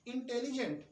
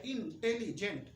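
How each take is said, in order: First: Said in the usual way. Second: intelligent broken into इन, tele, gent; syllable by syllable. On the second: Shown as a demonstration. Teacher counting syllables for the class, intelligent in chunks. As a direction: say intelligent in three separate chunks. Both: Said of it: "तीन syllable का शब्द है".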